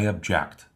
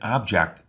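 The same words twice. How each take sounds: First: The stress is on the second syllable. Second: The stress is on the first syllable. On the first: Expressing disagreement or dissatisfaction. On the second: A thing, or the part of a sentence that receives the action.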